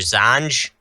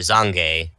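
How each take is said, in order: First: It is said as one syllable, American style. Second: It is said with two syllables, Japanese style. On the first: "pronounce this like an American" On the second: "pronounce it like Japanese"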